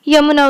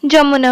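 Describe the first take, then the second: First: The word begins with a 'y' sound. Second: The word begins with a 'j' sound. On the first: This is the Hindi pronunciation. "Hindi रे कौन यमुना उच्चारण हुए" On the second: This is the Odia pronunciation. "Odia रे कौन जमुना हुए"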